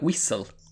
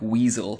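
First: The middle consonant is a long hissing 's'. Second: The middle consonant is a normal 'z' sound.

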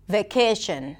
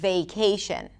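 First: The vowel stays steady without gliding. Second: The vowel glides into a second sound. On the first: The speaker calls it wrong. "only pronounce the first part of the diphthong" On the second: The speaker calls it right. "instead of"

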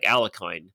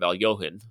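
First: The middle sounds like 'lek' with a hard k. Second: The middle sounds like 'lyo' with a breathy h. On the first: This is how Americans say the name. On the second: This is the name's original pronunciation.

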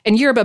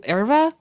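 First: It is said with an American pronunciation. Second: It is said with a Portuguese pronunciation. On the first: "is a super American pronunciation" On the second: "in Portuguese, it's closer to erva"

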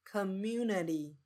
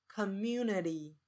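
The two takes are said the same way.

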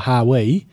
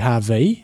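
First: The middle consonant is a W sound. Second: The middle consonant is a V sound. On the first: The speaker calls it wrong. "So you said just before" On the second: The speaker calls it right. "it's supposed to be"

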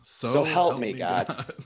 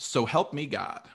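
First: It is said pleadingly with a pause before God. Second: It is said flatly as a plain statement. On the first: The speaker is begging God for help. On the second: It is the usual oath formula.

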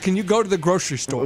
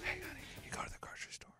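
First: It is said in a normal voice. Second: It is said in a whisper.

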